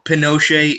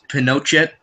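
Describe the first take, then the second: First: The final T is soft. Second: The final T is hard. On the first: The speaker calls it right. "It's a soft T" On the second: The speaker calls it wrong. "it's spelled like you would think it's Pinochet"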